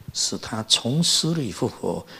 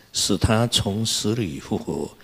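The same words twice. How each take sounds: No difference in how they are said.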